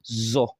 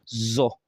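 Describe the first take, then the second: First: The consonant is a buzzing z sound. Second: The consonant is a buzzing z sound.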